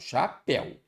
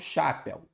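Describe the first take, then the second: First: The stress is on the last syllable. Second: The stress is on the first syllable. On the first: The speaker calls it right. "eu falo chapéu, está na sílaba tônica" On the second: The speaker calls it wrong. "Eu não falo chapéu"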